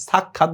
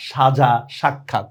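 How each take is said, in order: First: সাক্ষাৎ opening on dental "s"; wrong s sound. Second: সাজা, সাক্ষাৎ slowly, each opening on "sh"; sh sound. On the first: Teacher shows the forbidden form, সাক্ষাৎ with "s". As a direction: say সাক্ষাৎ as "sakkhat", no "sh". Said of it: "সাক্ষাৎ বলতে পারবে না". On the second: Teacher models spelling by ear, সাক্ষাৎ with initial "sh". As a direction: say "shaja, shakkhat". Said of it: "উচ্চারণ যদি স্বর মতো হয়". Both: Shown as a demonstration.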